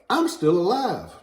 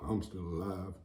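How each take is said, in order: First: It is said in a glad, grateful tone. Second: It is said in a glum, disappointed tone. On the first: Being alive is a blessing. The speaker calls it right. "I'm going to be like" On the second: Being alive is a letdown. The speaker calls it wrong.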